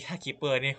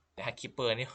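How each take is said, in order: First: Giggling through ถ้าคิปเปอร์นี่, louder; ถ้าคิปเปอร์นี่ said between giggles; laughing restart. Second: Said in the usual way. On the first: Real, not acted.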